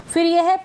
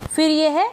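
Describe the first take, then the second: No difference in how they are said.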